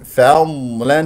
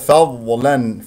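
First: The fa is light and dad is prolonged. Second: The fa is heavy and dad sounds like dha. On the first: The speaker calls it right. "فيها رخاوة واستطالة وتفخيم" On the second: The speaker calls it wrong. "وفخم الفاء والفاء مرققة، وجعل الضاد ضاء"

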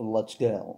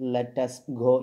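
First: Let and us are merged into one short syllable. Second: Let and us are said as two full words. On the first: It sounds casual, suited to everyday talk. The speaker calls it right. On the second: It sounds formal, suited to ceremonies. The speaker calls it wrong.

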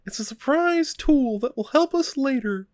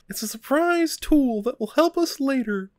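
First: It is said in a Mickey Mouse voice. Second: It is said in a Mickey Mouse voice.

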